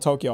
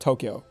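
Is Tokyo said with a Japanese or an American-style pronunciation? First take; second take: Japanese; American. First: It is said with a fully Japanese pronunciation. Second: It is said with a hybrid American pronunciation. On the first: "I'm not gonna say Tokyo" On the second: "a hybrid Japanese and American pronunciation"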